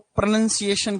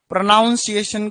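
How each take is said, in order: First: It is said in the English-speaker way. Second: It is said in the everyday Hindi-speaker way. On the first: The speaker calls it right. "प्रोनाउंसिएशन कहते हैं अंग्रेजी वाले" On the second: The speaker calls it wrong. "प्रोनाउंसिएशन को"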